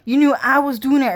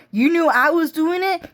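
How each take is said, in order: First: Fast, falling statement, stress on knew; flat accusation. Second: High rising disbelief on it; incredulous question. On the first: Girl telling the crowd they knew, falling. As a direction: state it quick and certain. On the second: Girl asking the crowd in disbelief, rising. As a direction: ask it shocked, pitch climbing. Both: Retold or imitated.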